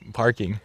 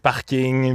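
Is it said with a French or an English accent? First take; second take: English; French. First: It is said with an English accent. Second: It is said with a France French accent.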